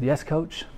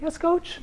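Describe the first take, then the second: First: It is said in a normal speaking voice. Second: It is said in a high-pitched voice.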